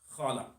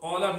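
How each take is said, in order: First: The first sound is a raspy 'kh'. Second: The first sound is a deep 'q'. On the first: It means he thought. The speaker calls it wrong. "we Hyderabadi usually pronounce the qaf as kha" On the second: It means he said. The speaker calls it right. "qala means he said"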